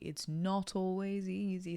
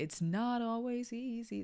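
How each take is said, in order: First: It is said with British vowel sounds. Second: It is said with American vowel sounds. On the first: "suddenly sounds so British" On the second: "that is still like an American sound"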